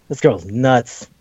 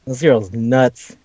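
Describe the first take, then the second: First: Said in the usual way. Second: Slow, stunned repeat; slow disbelief. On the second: Real, not acted. Friend marvels at the anime girl, slow stunned repeat. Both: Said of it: "repeated slower".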